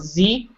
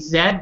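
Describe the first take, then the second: First: The letter is said as zee. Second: The letter is said as zed. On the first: This is the American way. "How Americans, they pronounce Z" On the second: This is the Canadian way. "how in Canada we say Z"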